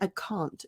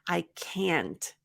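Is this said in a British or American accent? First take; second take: British; American. First: It has a British accent. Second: It has an American accent. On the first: "for the British pronunciation" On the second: "So for the American one"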